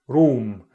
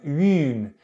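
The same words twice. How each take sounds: First: The vowel is a back rounded vowel. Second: The vowel is a front rounded vowel. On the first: "in R P, it was back" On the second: "in multicultural London English, it's front"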